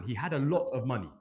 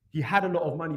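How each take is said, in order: First: Said in the usual way. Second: Had punched higher and louder; stress on had. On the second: Shown as a demonstration. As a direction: hit the word had hard, the rest following.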